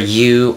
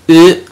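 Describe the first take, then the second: First: The vowel is said like English 'you'. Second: The vowel is said like 'oo' in food. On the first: The speaker calls it wrong. "You is never you" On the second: The speaker calls it right. "It's u, like like food in English"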